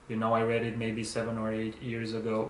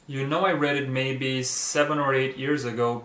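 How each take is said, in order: First: It is read in a flat, robotic voice. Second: It is read with natural, lively intonation.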